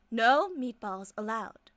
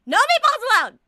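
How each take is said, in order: First: Said in the usual way. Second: Shouting. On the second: Acted. Fortune teller bans food, shouting.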